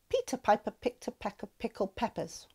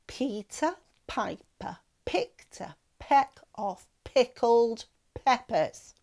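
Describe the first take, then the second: First: It is said at a faster pace. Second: It is said slowly.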